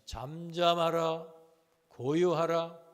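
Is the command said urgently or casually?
casually. It is said calmly, like ordinary speech.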